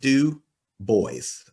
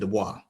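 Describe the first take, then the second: First: The name is said without a French pronunciation. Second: The name is said with a French pronunciation. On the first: The speaker calls it right. "he gave the phonetic pronunciation of his name. It's like" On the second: The speaker calls it wrong. "not the French pronunci- pronunciation"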